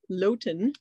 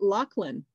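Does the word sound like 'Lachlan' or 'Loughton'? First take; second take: Loughton; Lachlan. First: The word sounds like 'Loughton'. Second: The word sounds like 'Lachlan'. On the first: The speaker calls it wrong. "not Loughton" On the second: The speaker calls it right. "you say it Lachlan"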